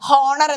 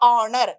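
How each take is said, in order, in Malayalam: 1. ഈ വാക്ക് കേൾക്കാവുന്ന h ശബ്ദത്തോടെയാണ് തുടങ്ങുന്നത്. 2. ഈ വാക്ക് നേരിട്ട് ഒരു സ്വരാക്ഷര ശബ്ദത്തോടെയാണ് തുടങ്ങുന്നത്. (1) "ശരിക്കും അത് വായിക്കുകയാണെന്നുണ്ടെങ്കിൽ ഹോണർ എന്നാണ്. നമ്മൾ ഹോണർ എന്നാണോ പറയാ?" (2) "ഓണർ എന്നാണ് വരുന്നത് അല്ലെ?"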